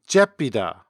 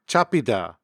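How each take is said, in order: First: The first vowel is shifted to an 'e' sound. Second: The first vowel is an open 'a' sound. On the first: "but a Jeolla speaker might pronounce it" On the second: "the standard accent pronounces the word to catch"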